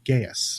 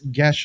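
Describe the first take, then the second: First: It is two syllables, sounding like guy-us. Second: It is one syllable, sounding like gesh. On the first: "what most people call Gaius" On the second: "it's Gesh spelled G E A S"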